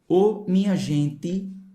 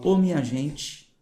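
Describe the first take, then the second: First: The t is plain without hissing. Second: The t has a slight hissing sound. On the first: The speaker is from the Northeast. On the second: The speaker is from São Paulo.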